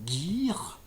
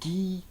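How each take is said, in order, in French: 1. Il finit par un R à la française. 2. Il est coupé en deux, sans R à la française. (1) "avec le R bien à la française à la fin" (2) "on peut transformer en deux syllabes"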